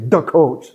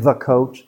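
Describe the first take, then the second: First: 'The' begins with a d sound, Chicago style. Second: 'The' begins with a standard th sound. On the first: "they say the coach" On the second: "Instead of saying the coach"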